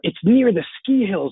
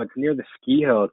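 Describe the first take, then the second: First: It is said in a cheerful, upbeat tone. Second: It is said in a doubtful, negative tone. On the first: The location is a selling point. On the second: The location is a drawback.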